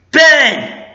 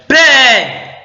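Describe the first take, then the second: First: High, loud acted call. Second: High, loud call that squeaks; squeaking shout. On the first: Fan redoing Han Solo's call to his son, calling out. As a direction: shout a name to someone at a distance. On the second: Retold or imitated. Fan acting Han Solo calling his son, voice squeaking. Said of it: "sorry, my voice squeaked".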